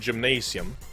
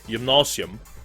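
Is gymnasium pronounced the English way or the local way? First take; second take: English; local. First: The word is pronounced the English way. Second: The word is pronounced the local way. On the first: "We call it gymnasium" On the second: "or how we pronounce it"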